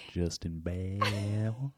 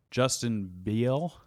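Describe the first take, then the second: First: Slow, laughing through Justin Bale. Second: Slow Southern drawl on Justin Beal; Southern accent. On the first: Real, not acted. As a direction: giggle out the corrected name. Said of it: "it's Justin Bale". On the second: Acted. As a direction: stretch the name out Southern-style. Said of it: "You said that in a really southern accent".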